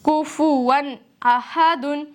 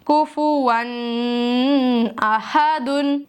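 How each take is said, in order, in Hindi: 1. n साफ़, जल्दी और बिना नासिकीकरण के है। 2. n नासिकीकरण के साथ खिंचा हुआ है। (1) "यहाँ पर मैंने नून के मखरज को जाहिर कर दिया, यानी इजहार कर दिया है। बगैर गुनने के भी पढ़ा है और जल्दी भी पढ़ा है।" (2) "और मैं गुन्ना करती हूँ तो आवाज कैसी होती है"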